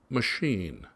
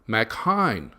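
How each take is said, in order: First: It is said as the ordinary word machine. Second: It is split into two parts, Mac and Hine. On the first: This is how the name's owner says it. The speaker calls it right. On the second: The name is read like the similar name before it. The speaker calls it wrong.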